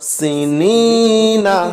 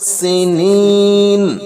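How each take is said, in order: First: The word ends with a short a vowel. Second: The word ends on the n sound. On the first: The reading continues without stopping. "নুন জবর না" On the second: The reader stops on this word. "থামলে হবে সিনিন"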